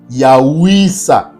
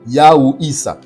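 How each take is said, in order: First: The two parts run together into one word. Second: The two parts are said as separate words. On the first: "Lorsqu'on fait la liaison, ça nous donne Yahwisa" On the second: "Vous avez Yahou et, et ensuite vous avez Issa"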